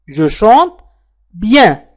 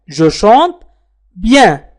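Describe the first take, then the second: No difference in how they are said.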